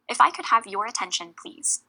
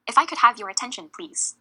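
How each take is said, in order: First: Said in the usual way. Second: "attention" louder, then a pause and a falling, set-apart "please"; firm emphasis. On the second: Shown as a demonstration. Chair making people listen, firm emphasis on "please". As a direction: say "please" firmly after a short pause. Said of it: "Emphasize the word please to sound firmer".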